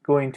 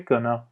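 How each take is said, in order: First: Both words are said fully and separately. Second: The words are reduced and blended into one. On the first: "تلفظش بکنیم going to رو" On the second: "به گنا"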